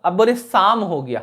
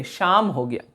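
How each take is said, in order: First: शाम said with s instead of sh; wrong s in शाम. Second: शाम said with a clear sh; right sh in शाम. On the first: Teacher shows the wrong शाम with s. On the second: Teacher shows the right शाम with sh. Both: Shown as a demonstration. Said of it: "शाम हो गया नहीं".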